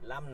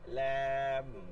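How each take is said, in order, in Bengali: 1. স্বরটি হ্রস্ব, টেনে বলা হয় না। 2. স্বরটি এক আলিফ পরিমাণ টানা হয়। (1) "লাম না" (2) "লামের মধ্যে একালিফ টান আছে"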